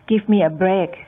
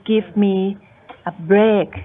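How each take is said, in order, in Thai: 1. วลีนี้พูดออกมาเป็นหน่วยเดียวต่อเนื่องกัน 2. วลีนี้ถูกแบ่งเป็นสองส่วนด้วยการหยุดคั่น (1) "ถ้าพูดทั้งหมดพูดทีเดียวเลยนั่นนะคะก็เป็นการพูดตามปกติ" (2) "คือมี pause นิดนึงใช่ไหมคะเพื่อที่จะเน้นนะคะว่าเนี่ยฉันโกรธแล้วนะ"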